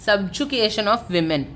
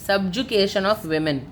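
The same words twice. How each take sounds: The two takes are said the same way.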